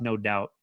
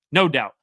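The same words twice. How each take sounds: First: Said in the usual way. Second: "No doubt." punched out louder, with a falling end; emphatic repeat. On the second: Real, not acted. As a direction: hammer the point home with "No doubt.". Repeating his verdict for emphasis.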